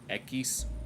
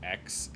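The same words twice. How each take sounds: First: The letter is pronounced the Spanish way. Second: The letter is pronounced the English way.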